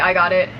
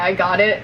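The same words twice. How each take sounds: First: It is said in a plain, neutral tone. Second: It is said in a rude, sarcastic tone. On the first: The speaker simply agrees to do the task. The speaker calls it right. "that's fine" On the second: The speaker is being rude and dismissive. The speaker calls it wrong. "in, like, a rude way, like, kind of sarcastic"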